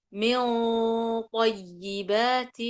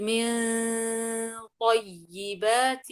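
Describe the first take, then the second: First: "من طيبات" very slow and loud, the ghunna heavy like the ط; heavy nasal. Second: "من طيبات" very slow and loud, the ghunna light before a heavy ط; wrongly thin the nasal of "من" before the heavy ط; light nasal mistake. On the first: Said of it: "أجيب حرف الطاء مفخم". (غنة مفخمة في "من طيبات") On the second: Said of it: "أجيب الغنة مرققة". (غنة مرققة خاطئة في "من طيبات") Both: Shown as a demonstration.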